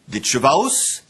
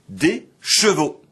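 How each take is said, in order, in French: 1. Le mot se termine par un glissement a-o. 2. Le mot se termine par une voyelle o simple. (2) "et enfin"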